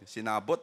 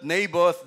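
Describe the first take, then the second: First: The name is said with Tagalog sounds. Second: The name is said with English sounds. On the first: "Pag ito Tagalog" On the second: "i-pronounce natin ng tama kasi English ito"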